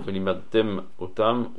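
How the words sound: A short break separates the two words. It is clearly two words. The speaker calls it right. "qu'on voit clairement que c'est deux mots"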